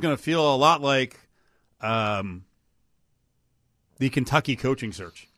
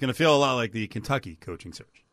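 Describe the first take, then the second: First: It is said with an odd pitch pattern. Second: It is said with an ordinary pitch pattern. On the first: The speaker calls it wrong. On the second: The speaker calls it right.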